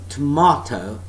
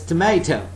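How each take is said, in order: First: It is said with a British accent. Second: It is said with an American accent. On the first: "that's British pronunciation" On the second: "that's North American English"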